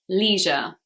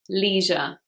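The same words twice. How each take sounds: First: It is said with an American accent. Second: The same.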